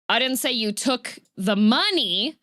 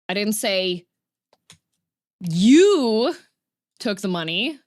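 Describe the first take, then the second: First: The stress falls on the word money. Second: The stress falls on the word you. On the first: Something else was taken. "I said that you took something else" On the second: Someone else took the money. "I said that somebody else took the money"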